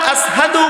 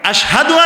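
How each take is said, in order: First: The word is said with a thin 's' sound. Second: The word is said with a thick 'sh' sound. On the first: "শিনের জায়গা সা পড়তেন" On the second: "শিনের উচ্চারণ হবে ঘন"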